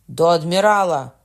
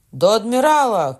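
First: A firm first cry to the admiral; shouting. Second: Higher, louder echo of the call; shouting after. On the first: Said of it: "гукнув Марвель". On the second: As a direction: top the first cry, higher and louder. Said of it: "кричав за ним Лагрюєр". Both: A narrator's reading.

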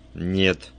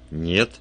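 First: "Нет" as a weighty, final statement; meaningful. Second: "Нет?" with a rising tune; questioning echo. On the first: Inspector stops the detective leaving, "Нет" said meaningfully. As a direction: say "Нет" firmly and significantly. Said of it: "значительно сказал Кремер". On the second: Detective queries the inspector's refusal, "Нет?" rising in question. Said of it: "переспросил Вульф". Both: A narrator's reading.

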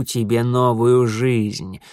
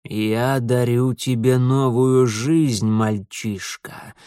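First: Very slow, ominous lord of darkness; dark lord. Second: Put-on slow, menacing old stranger; ominous old man. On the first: Acted. Setil's slow promise. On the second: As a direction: drag it out slowly, like a threat.

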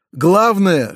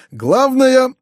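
First: Said in the usual way. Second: Главное flung out high and loud; stress on главное. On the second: A narrator's reading. Uncle hammering his main advice to nephew, Главное stressed high. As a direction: hit Главное hard and high. Uncle repeats key word.

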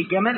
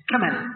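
First: Said in the usual way. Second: "كمل" opening on k instead of j; jim as kaf. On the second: Shown as a demonstration. Teacher showing Yemeni usage, "كمل" with k for j. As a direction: start "كمل" with a k sound for the jim. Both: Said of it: "الجيم كاف".

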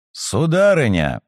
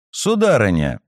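First: Loud call. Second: Said in the usual way. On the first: Acted. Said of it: "Мой голос звучал громче её завываний".

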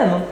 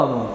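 First: آنون as a light "AE-non"; correct vowel. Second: آنون as a heavy "AH-non"; broad back "aa" opening آنون; strange-sounding vowel. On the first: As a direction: front "ae" opening آنون. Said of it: "لكن هي آنون". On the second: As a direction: say آنون with the A too open. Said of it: "بتطلع لهجة غريبة". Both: Shown as a demonstration.

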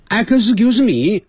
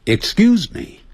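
First: Higher, slow "Excuse me" with extra vowels, "a-ka-si-kiu-si me"; clumsy, over-syllabled "Excuse me"; wrong excuse me. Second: "Excuse me" crisp, "ik-skjuz me"; correct excuse me. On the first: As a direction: drag "Excuse me" out with inserted vowels. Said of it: "哎，不对". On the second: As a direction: say "Excuse me" cleanly, no extra vowels. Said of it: "我慢慢念". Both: Shown as a demonstration.

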